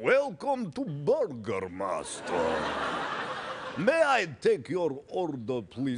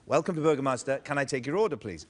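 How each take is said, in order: First: It is said in a Dracula impression. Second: It is said in his normal voice.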